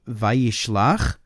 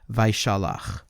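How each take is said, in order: First: It is said with an 'i' vowel: va-yish-lach. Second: It is said with an 'a' vowel: vai-sha-lach. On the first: It means sent. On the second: It means released.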